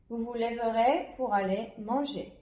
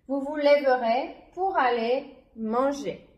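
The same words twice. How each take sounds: First: The sentence is read at a quicker pace. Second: The sentence is read at a slower pace.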